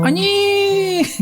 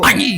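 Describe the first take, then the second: First: It is said in a fond, admiring tone. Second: It is said in an angry tone. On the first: The speaker reacts fondly on seeing a baby. "Eta mah ningali orok penuh" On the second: The speaker is angry. "Eta ngamek"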